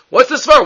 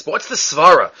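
First: The question again, higher and pressing; emphatic repeat. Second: Said in the usual way. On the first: Shown as a demonstration. Teacher pressing students on the reasoning, emphatic. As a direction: push the repeat of Svara up in pitch to make students think.

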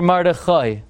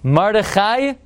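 First: "Mordechai" ending in an "oy" sound. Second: "Mordechai" ending in an "eye" sound. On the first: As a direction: say "Mordechai" as Mor-de-KHOY. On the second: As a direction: say "Mordechai" with final -khai, rising as a question. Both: Shown as a demonstration. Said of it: "Is the name".

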